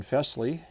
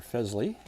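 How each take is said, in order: First: Fesley with a hissed S, FESS-lee; Fesley rhyming with "dressly"; soft S pronunciation. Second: Fesley with a buzzed Z, FEZ-lee; Fesley with Z in place of S; Z pronunciation. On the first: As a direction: say Fesley with an unvoiced S. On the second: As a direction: say Fesley as "Fezley". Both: Shown as a demonstration. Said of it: "how they pronounce their name".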